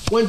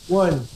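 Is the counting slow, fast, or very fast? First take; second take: very fast; fast. First: The counting is as fast as possible. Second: The counting is somewhat faster.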